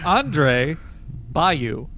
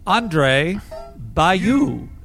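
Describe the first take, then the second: First: The final 'u' sound is said in a plain way. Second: The final 'u' sound is stressed in an odd way. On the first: The speaker calls it right. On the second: The speaker calls it wrong.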